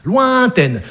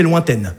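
First: LOINTAINE stretched out and pitched up; emphatic repeat. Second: Said in the usual way. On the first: Shown as a demonstration. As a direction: draw out the first syllable of Lointaine.

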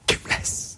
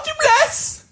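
First: Hushed, voiceless echo of the line; whispered double. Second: High tearful dubbed voice; mock crying. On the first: Shown as a demonstration. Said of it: "Doublé chuchoté". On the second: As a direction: plead it in a high film-heroine wail. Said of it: "La fille pleure".

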